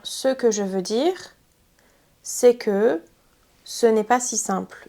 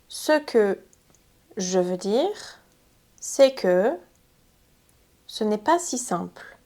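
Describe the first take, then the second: First: There is no pause right after "ce que". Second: There is a pause right after "ce que". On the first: "Ça aurait fait trois blocs" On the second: "J'ai rajouté une pause ici"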